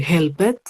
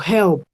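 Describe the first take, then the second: First: HELPED read as 'hel-ped', with the e sounded; learner's 'helped' with a spelt-out -ed; wrong two-syllable ending. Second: HELPED in one syllable, ending 'lpt'; teacher's 'helped', the -ed turned into t; final T sound. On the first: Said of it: "yo no podría decir helped". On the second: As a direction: say 'helped' with no e, closing on a crisp t. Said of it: "con ese sonido de la T". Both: Shown as a demonstration.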